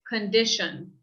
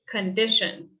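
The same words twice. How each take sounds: First: The first vowel is a weak uh sound. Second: The first vowel is a weak uh sound.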